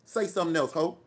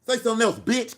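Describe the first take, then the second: First: Said in the usual way. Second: Much higher and louder, yelling the dare; angry shouted dare at a chat troll; furious shout. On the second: Real, not acted. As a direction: scream the challenge back at the troll. Daring a chat troll, escalating.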